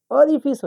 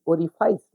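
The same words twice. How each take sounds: First: Short i in the end of ओरिफिस; correct pronunciation. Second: Long "eye" vowel in ओरिफाइस; wrong pronunciation. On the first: Teacher correcting the common mistake, ओरिफिस with "fiss" ending. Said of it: "ओरिफिस होता है". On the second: Teacher showing the common mistake, ओरिफाइस with "eye" vowel. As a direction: say ओरिफाइस ending in "fice" as in "ice". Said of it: "लेकिन ओरिफाइस नहीं होता है". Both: Shown as a demonstration.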